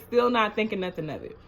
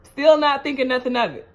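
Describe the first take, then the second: First: Quick repeat. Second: Louder, punching the word still; emphatic. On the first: Repeating to viewers she suspected nothing, quickly. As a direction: rattle it off as an echo. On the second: Telling viewers she suspected nothing, emphatic. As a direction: stress still, make them listen. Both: Shown as a demonstration.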